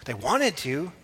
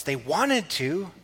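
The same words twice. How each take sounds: First: Said in the usual way. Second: "They wanted to" drawn out slowly, leaning on "wanted"; slow emphatic repeat. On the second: Shown as a demonstration. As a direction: stretch out "wanted" to drive it home. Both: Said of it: "The desire was in their hearts".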